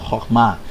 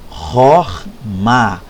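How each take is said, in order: First: The word is said at a normal pace. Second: The word is said slowly and deliberately.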